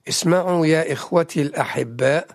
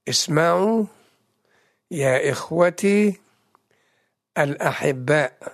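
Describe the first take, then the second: First: It is read at a normal, quicker pace. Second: It is read slowly and deliberately.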